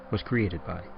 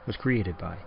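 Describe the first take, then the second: No difference in how they are said.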